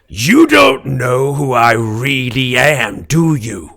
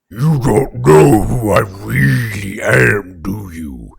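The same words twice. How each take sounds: First: It is said in a normal-pitched voice. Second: It is said in a very low voice.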